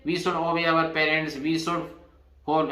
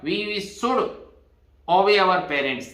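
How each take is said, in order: First: Very slow, each word set apart for students; slow dictation. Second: Said in the usual way. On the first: Shown as a demonstration. Teacher repeats the should sentence for students, slow dictation. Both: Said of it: "यहाँ should है".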